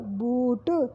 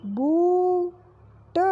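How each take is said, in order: First: बूट short and plain; quick repeat. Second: बूट with a very slow, higher long ऊ; slow drawn. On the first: (बूट जल्दी दोहराना) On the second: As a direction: stretch बूट out. (बूट को खींचकर) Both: Shown as a demonstration. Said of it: "मात्रा".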